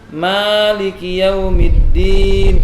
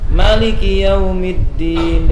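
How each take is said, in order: First: The first vowel of maliki is long. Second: The first vowel of maliki is short.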